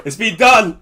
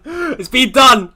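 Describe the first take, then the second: First: Said in the usual way. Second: Drawn out, higher, louder yell of relief; frantic shout. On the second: Real, not acted. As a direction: stretch it out and shout it. Frantic rush before the deadline.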